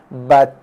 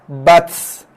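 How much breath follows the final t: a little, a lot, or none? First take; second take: a little; a lot. First: The t is released with a soft puff of breath. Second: The t is released with a strong burst of breath. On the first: The speaker calls it right. "jelas ni bunyi angin yang keluar daripada bacaan saya tu" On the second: The speaker calls it wrong. "Itu kita hembus. Jangan hembus"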